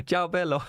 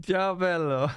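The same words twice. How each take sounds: First: Light mock Italian, tossed off to a viewer; a quick, cheerful ciao in a hint of an Italian accent; playful Italian greeting. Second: A bigger mock Italian ciao, still laughing; hammed-up Italian greeting. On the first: Greeting an Italian viewer with a light Italian ciao. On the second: Laughing at his German slip, greets the Italian viewer hammily. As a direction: lean into the Italian accent, amused at himself.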